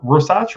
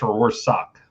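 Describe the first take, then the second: First: Rorschach said as ROR-satch; alternative pronunciation. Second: Rorschach said as ROR-sack; alternative pronunciation. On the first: Quiz host unsure of a name, Rorschach tried as ROR-satch. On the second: Quiz host unsure of a name, Rorschach tried as ROR-sack. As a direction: end Rorschach on a hard K. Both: Shown as a demonstration.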